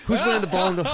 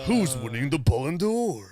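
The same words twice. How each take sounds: First: High villain voice; squeaky cartoon villain; evil character voice. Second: Slow villain voice; drawn-out cartoon villain line; evil character voice. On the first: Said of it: "It sounds like an evil character". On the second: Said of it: "you sound like A J Buffon".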